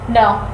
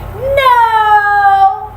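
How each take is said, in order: First: It is said calmly, clearly and seriously. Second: It is said softly in a friendly, warm way. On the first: It marks the behavior as wrong without anger. The speaker calls it right. "calm, clear, but serious voice" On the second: It tries to build a warm bond. The speaker calls it wrong. "which is like if you're trying to develop rapport"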